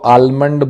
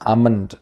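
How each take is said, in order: First: The L sound is pronounced in the word. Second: The L sound is left out of the word. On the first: The speaker calls it wrong. "कई लोग इसको आलमंड बोलते हैं" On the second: The speaker calls it right. "एल इसमें silent होता है"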